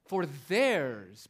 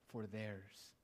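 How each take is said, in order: First: "theirs" hit louder and falling; "theirs" punched, "For" kept light; stress on theirs. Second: Said in the usual way. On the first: Shown as a demonstration. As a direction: lean hard on "theirs", not on "For". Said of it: "Look at that pronoun, it's fronted". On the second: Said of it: "the emphasis falls on the fact that we are possessors".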